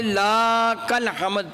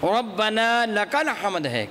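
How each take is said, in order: First: لک الحمد slowly with لا cut short; the mistaken لک الحمد; wrong reading. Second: ربنا لک الحمد slow with لک clear; correct recitation. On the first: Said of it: "اللہ نہ کرے کو پڑھ دے". (غلط طریقے سے لک الحمد) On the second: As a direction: model the right ربنا لک الحمد. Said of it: "میں مثال دینا چاہتا ہوں". (درست ترتیل کے ساتھ) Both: Shown as a demonstration.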